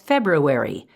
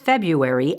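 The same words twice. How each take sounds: First: Said with every syllable sounded out carefully. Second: Said the everyday way, with natural reductions.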